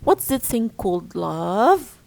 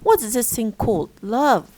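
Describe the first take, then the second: First: It is said as one unit without a pause. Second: It is split into two units before love. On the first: The question asks what love is. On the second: The listener is addressed as dear.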